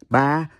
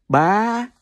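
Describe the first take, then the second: First: The pitch stays level through the word. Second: The pitch rises through the word.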